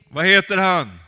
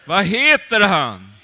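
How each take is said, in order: First: Loud call to the congregation, stress on heter; preaching call. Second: Slower, louder, drawn-out stress on heter; emphatic repeat. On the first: Preacher calls out to the congregation, loud. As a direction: call it out to the crowd. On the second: Preacher repeats the question to the congregation, slow and loud. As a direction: drive the question home, slowly. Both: Real, not acted.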